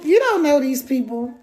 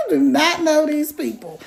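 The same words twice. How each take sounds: First: Said in the usual way. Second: "do not" spelled out and weighted, both words separate; stress on do not. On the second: Shown as a demonstration. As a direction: lean on "do not" for emphasis.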